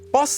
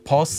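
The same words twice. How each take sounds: First: The first consonant is a tense pp sound. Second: The first consonant is a plain b sound. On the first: The speaker calls it right. "with the double P" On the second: The speaker calls it wrong. "But you don't say bus"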